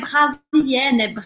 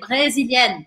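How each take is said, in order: First: The first vowel is an open 'a' sound. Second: The first vowel is a closed 'é' sound. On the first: The speaker calls it wrong. "não é brasilienne" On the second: The speaker calls it right. "é brésilienne"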